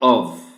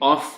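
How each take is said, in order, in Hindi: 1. इस शब्द का अंत v की आवाज़ से होता है। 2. इस शब्द का अंत f की आवाज़ से होता है। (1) "एफ की साउंड इसमें है ही नहीं" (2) "ये ऑफ नहीं है"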